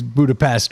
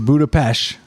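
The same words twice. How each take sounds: First: It is pronounced the usual American way. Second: It is pronounced the local, native way. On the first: "which is how we say it" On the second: "proper way is Budapest"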